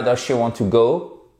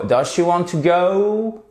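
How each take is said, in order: First: "go" short with pure rounded O; French-style GO. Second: Slow, high question with "go" stretched OH-OO; English diphthong on GO. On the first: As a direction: say "go" with a French O, no glide. ("go" à la française, sans diphtongue) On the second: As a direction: open and glide the O of "go" as it rises. ("go" allongé, diphtongue anglaise montante) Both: Shown as a demonstration. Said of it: "Et pas does she want to go".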